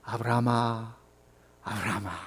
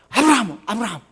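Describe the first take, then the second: First: The name is called calmly and slowly. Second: The name is called urgently and hurriedly.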